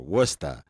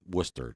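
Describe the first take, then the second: First: The name is said in the local Massachusetts way. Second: The name is said in the general outsider way. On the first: This is how people there say it. "as they say up there" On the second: This is how everyone else says it. "to the rest of the world"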